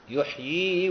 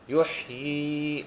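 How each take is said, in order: First: The word runs straight on into the next word. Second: The word ends with a full stop after it. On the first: The reader continues reading without stopping. "فنقرأ حال الوصل" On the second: The reader pauses on this word. "إذا وقفنا"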